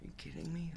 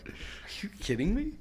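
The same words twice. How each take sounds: First: Soft, high, stunned; quiet retold shock; hushed disbelief. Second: Disbelief. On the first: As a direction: breathe it out in disbelief. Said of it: "And I'm like". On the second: Retold or imitated. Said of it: "I'm like".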